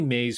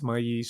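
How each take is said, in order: First: The word is said with an English pronunciation. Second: The word is said with a Spanish pronunciation. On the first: "I'll say maize for your, for your, um, for your purposes" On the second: "I'll give it the Spanish pronunciation"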